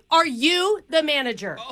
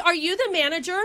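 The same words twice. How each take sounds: First: "Are" punched, falling at the end; stress on Are. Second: Said in the usual way. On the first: Acted. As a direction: hit "Are" hard and demanding. Caller plays demanding customer.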